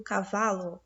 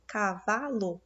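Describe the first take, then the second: First: Said in the usual way. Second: "cavalo" broken into syllables, ca-VA-lo; stress on VA. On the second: Shown as a demonstration. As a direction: sound out "cavalo" for the class, marking VA. ("cavalo" separado em sílabas, marcando o VA) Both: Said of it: "o vá é a sílaba mais forte".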